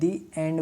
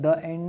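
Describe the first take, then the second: First: The word 'the' has a long 'ee' vowel. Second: The word 'the' has a short 'uh' vowel. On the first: The speaker calls it right. "दी एंड बोलते, क्योंकि वावेल sound ए है" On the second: The speaker calls it wrong. "द end नहीं बोलते"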